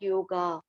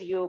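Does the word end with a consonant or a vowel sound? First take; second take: vowel; consonant. First: The word ends on an added vowel sound. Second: The word ends on a consonant sound. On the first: The speaker calls it wrong. "not yoga" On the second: The speaker calls it right. "The pronunciation is yog"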